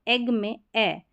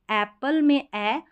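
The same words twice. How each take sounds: First: ए slowly, as the e of "egg"; egg vowel. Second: ए slowly, as the open a of "apple"; apple vowel. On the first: Teacher contrasting egg with apple, slow mid ए. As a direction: draw out a mid ए as in एग. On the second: Teacher contrasting apple with egg, open slow ए. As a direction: draw out an open ए as in एप्पल. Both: Shown as a demonstration. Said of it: "थोड़ा सा इतना आप difference देख सकते हैं".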